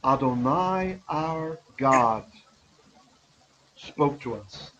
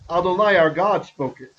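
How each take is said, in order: First: It is said calmly, with a pause. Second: It is said with excited, energetic emphasis.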